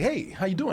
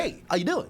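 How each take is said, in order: First: Chirpy pushy salesman greeting with a lift at the end. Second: A lightly hammed-up salesman hello, rising on "doing". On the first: Retold or imitated. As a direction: greet like a store salesman closing in. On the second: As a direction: play the fake-friendly store salesman. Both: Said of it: "I already got that salesman voice".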